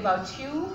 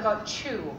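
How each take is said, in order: First: The t and y sounds are kept apart. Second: The t and y sounds merge into ch. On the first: The speaker calls it right. "You should say" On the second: The speaker calls it wrong.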